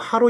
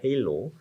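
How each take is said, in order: First: The word begins with an 'ah' sound. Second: The word begins with an 'ay' sound. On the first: The speaker calls it wrong. "하로 이펙트라고 얘기하는 사람이 있는데" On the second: The speaker calls it right. "정확한 발음이 헤일로입니다"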